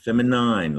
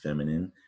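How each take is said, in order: First: The last syllable sounds like nine. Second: The last syllable sounds like min. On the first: The speaker calls it wrong. "Not feminine" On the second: The speaker calls it right. "Like this pretty dress is feminine"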